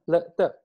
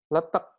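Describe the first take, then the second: First: It is pronounced the Thai way. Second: It is pronounced the Javanese way. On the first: "Kalau orang Thailand bacanya letek gitu" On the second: "letak kalau kita cara membacanya"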